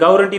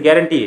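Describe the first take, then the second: First: The first syllable sounds like 'gaw'. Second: The first syllable sounds like 'ga'. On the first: The speaker calls it wrong. "गावरंटी नसते" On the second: The speaker calls it right. "गॅरंटी आहे"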